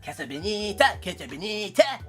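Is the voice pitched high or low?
low. The voice is at a lower, natural pitch.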